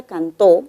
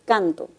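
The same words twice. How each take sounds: First: "cantó" stressed on the last syllable, tó; final-syllable stress. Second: "Canto" stressed on CAN, weak final o; first-syllable stress. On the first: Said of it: "la palabra cantó puede ser pronunciada de otra manera". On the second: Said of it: "puede ser pronunciada de otra manera". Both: Shown as a demonstration.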